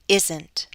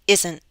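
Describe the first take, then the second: First: The final T is fully released. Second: The final T is a glottal stop. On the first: "let me read it first with a true T" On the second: "now I'll use a glottal stop"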